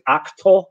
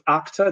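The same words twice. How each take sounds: First: The second vowel is a full vowel. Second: The second vowel is a weak schwa. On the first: The speaker calls it wrong. "they say actor" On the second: The speaker calls it right. "instead of actor"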